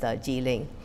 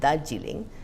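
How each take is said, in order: First: The stress is on a later syllable. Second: The stress is on the first syllable. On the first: "in German and English, the stress is way towards the right" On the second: "in Bengali, where it comes from"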